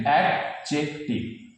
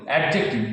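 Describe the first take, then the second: First: adjective slowly as অ্যাড-জেক-টিভ; syllable by syllable. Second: Said in the usual way. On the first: Shown as a demonstration. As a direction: break adjective apart with short pauses. (ভেঙে ভেঙে, ধীরে উচ্চারণ) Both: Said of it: "syllable ভেঙে ভেঙে বলতে হবে".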